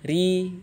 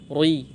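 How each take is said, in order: First: The r is pronounced thin and light. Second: The r is pronounced thick and heavy. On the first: The speaker calls it right. "selalu dibaca tipis" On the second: The speaker calls it wrong. "tidak boleh dibaca rui"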